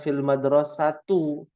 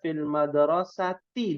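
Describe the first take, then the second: First: The last word ends with a u vowel. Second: The last word ends with an i vowel. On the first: The speaker calls it wrong. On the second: The speaker calls it right.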